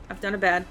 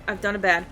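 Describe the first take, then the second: No difference in how they are said.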